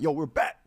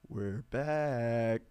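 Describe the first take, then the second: First: It is said loudly, screaming. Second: It is said quietly and calmly.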